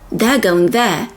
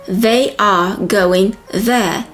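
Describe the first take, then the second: First: 'They are' is contracted to sound like 'there'. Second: 'They are' is said as two full words.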